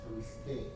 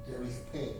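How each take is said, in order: Both takes have the same delivery.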